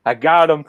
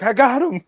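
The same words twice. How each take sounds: First: Laughing through a proud claim; mock triumphant, laughing. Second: High laughing proud claim; laughing triumph. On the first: Retelling the life jacket story, laughing I got him. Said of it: "I was like". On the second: Retold or imitated. Telling friends the catch story, laughing high. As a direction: squeak it out through laughter. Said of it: "I'm just like".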